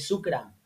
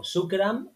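First: Said in the usual way. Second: Shukran with the vowel drawn out, pitched higher; stretched Shukran. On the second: Shown as a demonstration. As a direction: lengthen Shukran a little. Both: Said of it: "lo alargas un poco".

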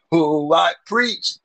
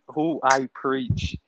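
First: Slow and drawn out, rising; slow preacher imitation. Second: Slow and drawn out, falling; slow preacher imitation. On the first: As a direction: quote him slowly, rising. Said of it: "Preacher said". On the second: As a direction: quote him slowly, falling. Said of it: "This man said".

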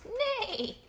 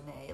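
First: Very high horse neigh; high-pitched play neigh. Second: Said in the usual way. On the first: Acted. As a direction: imitate a horse's whinny, pitched way up. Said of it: "I think he says neigh". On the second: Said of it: "like a horse".

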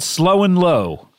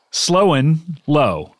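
First: Said in the usual way. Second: Slowly spelling out the name; drawn out, word by word. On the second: Shown as a demonstration. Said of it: "he is called Slow and Low".

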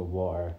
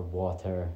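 First: "water" with the middle T left unpronounced; dropped T. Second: "water" with a clearly sounded T; T pronounced. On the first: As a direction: say "water" his own way, dropping the T. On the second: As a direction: say "water" slowly, pronouncing the T in the middle. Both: Shown as a demonstration. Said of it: "I don't pronounce my T's".

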